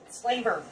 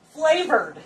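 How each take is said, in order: First: Said in the usual way. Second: Flavored said louder and higher, falling; emphasised word. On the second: Shown as a demonstration. Cook to viewers, stressing the panko is flavored. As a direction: lean on flavored, pitch up then down.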